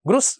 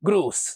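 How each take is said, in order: First: The vowel is said short. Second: The vowel is said long. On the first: The speaker calls it wrong. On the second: The speaker calls it right.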